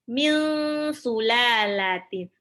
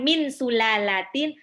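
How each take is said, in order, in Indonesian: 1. Bunyi n tersembunyi, berbaur secara sengau ke arah s. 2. Bunyi n diucapkan dengan jelas sebelum s. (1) "itu ikhfa. Nunnya hampir mau lompat ke marosnya sin" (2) "bukan min sulalatin"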